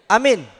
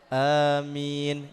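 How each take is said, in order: First: The amen is sudden and startling. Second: The amen is calm and moderate. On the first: It startles others and rushes the leader. The speaker calls it wrong. "Itu amin yang membuat orang lain kaget" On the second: It properly answers the recitation. The speaker calls it right. "Itu cukup"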